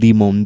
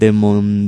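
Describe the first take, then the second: First: The word is pronounced with English sounds. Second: The word is pronounced with Spanish sounds.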